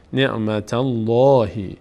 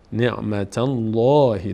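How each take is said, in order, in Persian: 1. 'l' در 'Allah' پر و سنگین است. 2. 'l' در 'Allah' پر و سنگین است.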